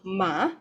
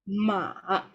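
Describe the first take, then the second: First: The pitch rises from middle to high. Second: The pitch dips down then rises. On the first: "from the middle and then to the top" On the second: "you go down and then you go up"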